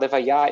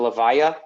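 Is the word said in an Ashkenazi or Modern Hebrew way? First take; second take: Modern Hebrew; Ashkenazi. First: It is said with a Modern Hebrew pronunciation. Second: It is said with an Ashkenazi Jewish pronunciation. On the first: "Livaya is the Hebrew word for funeral"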